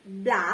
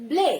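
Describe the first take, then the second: First: ব্লা said with an open a vowel; bla with a. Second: ব্লে said with an e vowel, not a; ble with e. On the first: Teacher showing the alternative a vowel in ব্লা. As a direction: say ব্লা with a broad ah. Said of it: "সেটাও কিন্তু আমরা চাইলে উচ্চারণ করতে পারি". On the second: Teacher modelling the e vowel in ব্লে. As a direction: say ব্লে rhyming with day. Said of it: "আমরা যদি এখানে উচ্চারণ করি B L এ". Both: Shown as a demonstration.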